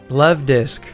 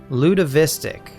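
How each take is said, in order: First: The name is said with two syllables. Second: The name is said with four syllables. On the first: This is the name as it is meant to be. The speaker calls it right. "how did they add so many extra syllables?" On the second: Someone else said it this way. The speaker calls it wrong. "pronounced it Lud Ludovistic"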